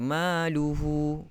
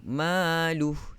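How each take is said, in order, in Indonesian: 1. Kata ini diakhiri dengan vokal u. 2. Kata ini diakhiri dengan bunyi h yang terhenti. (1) "tidak boleh baca maluhu" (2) "kita matikan"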